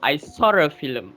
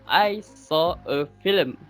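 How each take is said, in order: First: The words are said fast with an added R sound. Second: The words are said without an added R sound.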